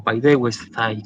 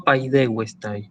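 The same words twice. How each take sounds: First: Paidewestai slowly, the T of tai turned into a Spanish Z, th as in think; with a Z sound. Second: Paidewestai with the stress on the E of the eu diphthong and a plain T; stress on first diphthong vowel. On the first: Teacher offers paidewestai the other way, with a th sound. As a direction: say paidewestai low and slow, ending in a lisped thai. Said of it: "con esa Z". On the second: Teacher shows where paidewestai takes its accent, stress on DE. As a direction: say paidewestai stressing DE, ending in a hard tai. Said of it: "se pronuncia como si lo llevara en la primera".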